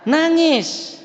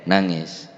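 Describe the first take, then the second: First: Put-on high wail on nangis, like a crying child; preacher mimicking a child crying; mock crying. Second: Said in the usual way. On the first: Shown as a demonstration. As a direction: whimper the word nangis much higher. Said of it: "mun takut mesti na". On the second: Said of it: "mun takut mesti".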